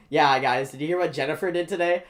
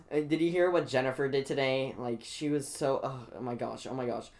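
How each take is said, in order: First: Loud, quick mimicking of gossip; mock gossip. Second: Gossiping classmates. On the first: Student parroting the gossiping girls back at them, mocking. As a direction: throw their gossip back at them loudly. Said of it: "I'm like". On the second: Retold or imitated. Student imitating girls gossiping about Jennifer, lightly mocking. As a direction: mimic classroom gossip, only slightly put on. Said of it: "girls over here are talking about".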